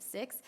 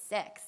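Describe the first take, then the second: First: Said in the usual way. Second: "sex" with an EH vowel, standing in for six. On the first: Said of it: "instead of six". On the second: Shown as a demonstration. Former player shows the team's counting joke, "sex" with an EH vowel. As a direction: say "sex" where six belongs. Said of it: "we would say sex instead of six".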